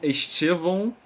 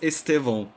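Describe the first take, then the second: First: The T is said in the Rio de Janeiro style. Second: The T is a plain English-like T sound.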